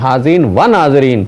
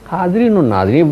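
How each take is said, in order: First: The middle 'wa' is said as a separate word. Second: The middle 'wa' is linked to the first word. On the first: The speaker calls it wrong. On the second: The speaker calls it right.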